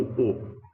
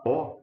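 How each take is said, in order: First: O said closed, like the ô in avô; a tight rounded closed O. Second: O said open, like the ó in herói; a wide open O sound. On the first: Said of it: "pronunciada como O". (O fechado, como em avô) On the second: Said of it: "não como O". (O aberto, como em herói) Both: Shown as a demonstration.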